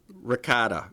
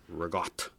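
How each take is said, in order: First: The word ends on a full final vowel. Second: The word ends on a sharp, spat consonant.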